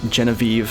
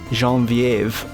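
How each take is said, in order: First: The name is said with an American pronunciation. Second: The name is said with a French pronunciation. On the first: The speaker calls it wrong. "if you're American" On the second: The speaker calls it right. "once I hear it pronounced correctly"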